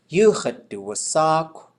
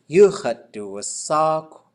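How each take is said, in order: Both takes have the same delivery.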